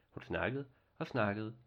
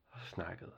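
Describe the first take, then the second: First: Said in the usual way. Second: Much softer, trailing off; fading away. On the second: A narrator's reading. Narrator lets the girl's chatter trail away, much softer. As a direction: let the word fade out like endless chatter.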